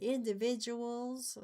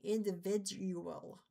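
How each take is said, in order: First: Slow, drawled country way of saying Individuals; country accent. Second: Individual said slowly and carefully, in-di-vid-u-al; standard pronunciation. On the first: Explaining spelling to a partner, in a country accent. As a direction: say Individuals like a country speaker, stretched out. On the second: Correcting the pronunciation for a partner, careful and slow. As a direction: spell out individual clearly, slowly. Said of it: "That's how you're supposed to say it". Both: Shown as a demonstration.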